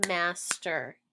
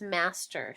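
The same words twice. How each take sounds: First: "master" split as mas, pause, ter; two separate beats on "master"; snapped syllables. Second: Said in the usual way. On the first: Shown as a demonstration. Teacher snapping out master, split into syllables. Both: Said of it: "Snap it".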